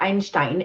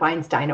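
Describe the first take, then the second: First: The name is said the German way. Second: The name is said the English way.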